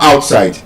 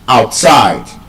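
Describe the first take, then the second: First: The stress is on the first syllable. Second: The stress is on the second syllable. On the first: The speaker calls it wrong. "It's not outside" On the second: The speaker calls it right. "The stress is on the second syllable"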